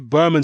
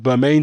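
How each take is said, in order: First: The last syllable sounds like 'man'. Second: The last syllable sounds like 'main'. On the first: This is how the person himself says his name. The speaker calls it right. "that's the way Stavern says his name is pronounced" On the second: This follows the spelling of the name. The speaker calls it wrong. "because it's got an E on the end"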